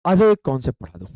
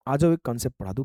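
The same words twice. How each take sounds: First: Quick call. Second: Said in the usual way. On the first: Shown as a demonstration.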